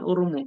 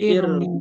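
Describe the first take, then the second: First: The word begins with an u vowel. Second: The word begins with an i vowel. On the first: The speaker calls it wrong. "bukan, bukan urmu" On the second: The speaker calls it right. "tapi irmu"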